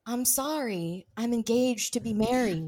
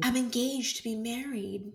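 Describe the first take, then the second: First: Impression of Sandra. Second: Soft, prim quoted apology; a hint of a polite refusal; impression of Sandra. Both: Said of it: "Really good impressions".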